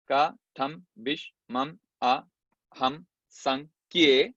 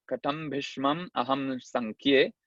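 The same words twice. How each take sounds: First: "Ka, tam, bish, mam, a, ham, san, kie" with a gap after each syllable; each syllable of "Ka, tam, bish, mam, a, ham, san, kie" detached. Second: Slow, measured Sanskrit recitation; slow scriptural chanting; verse recitation. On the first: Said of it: "cuatro líneas de ocho sílabas cada una". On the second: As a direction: recite the verse in drawn-out metre. Recites verse before counting it. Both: Shown as a demonstration.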